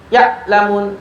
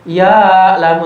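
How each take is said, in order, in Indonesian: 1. Ain itu berhenti penuh seperti hamzah. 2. Ain itu mengalir longgar tanpa tahanan sama sekali. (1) "Tertahan semuanya juga sah? Salah. Ini kedengarannya hamzah jadinya" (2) "mengalir lalu misalkan ya lamun ya lamun. Nah ini salah juga ya. kendor ya ya"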